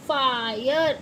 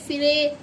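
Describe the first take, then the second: First: The vowel sounds like 'eye'. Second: The vowel sounds like a short 'i'. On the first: The speaker calls it right. "इसे हम फायर" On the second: The speaker calls it wrong. "ऐसे नहीं पढ़ सकते"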